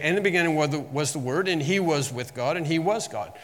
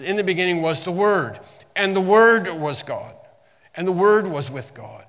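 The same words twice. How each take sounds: First: Said in the usual way. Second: "Word" struck louder and firmer in each phrase; emphasis on Word. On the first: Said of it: "It doesn't say that". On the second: Shown as a demonstration. Preacher showing how the verse stresses "Word", louder and firm. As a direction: lean on every "Word", declaring it. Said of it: "there's an emphasis".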